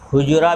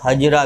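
First: The first vowel is u. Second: The first vowel is a. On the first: "हुजरा भी है" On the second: "यहाँ हजरा पढ़ना ये ज़्यादा सही है"

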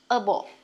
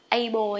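First: The first vowel sounds like 'uh'. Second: The first vowel sounds like 'ah'. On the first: The speaker calls it right. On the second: The speaker calls it wrong. "hay là a bồ nhé"

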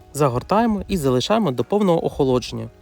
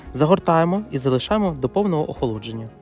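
No difference in how they are said.

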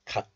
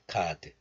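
First: The final consonant is held closed, unreleased. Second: The final consonant is audibly released. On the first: The speaker calls it right. "close the syllable" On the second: The speaker calls it wrong. "not 갓"

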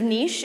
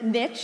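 First: It is said like 'neesh', with a long vowel. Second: It is said like 'nitch', rhyming with 'rich'.

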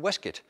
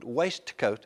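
First: The word is clipped, with letters left unsounded. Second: Every written letter of the word is sounded. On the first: "those clipped pronunciations" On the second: "words should be spoken with all the written letters sounded"

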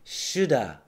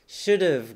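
First: The words blend into one reduced word. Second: Both words are said in full.

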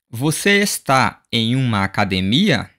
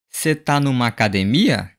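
First: Every word is said separately and in full. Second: Words are reduced, contracted and run together. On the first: "saying this in a formal way and word by word" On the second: "here we have connected speech"

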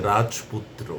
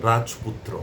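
No difference in how they are said.

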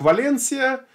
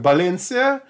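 First: The name begins with a V sound. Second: The name begins with a B sound. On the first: This is the form familiar to outsiders. "который мы знаем как Валенсия" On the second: This is how it is often said in Spain. "очень часто в Испании произносится именно как Баленсия"

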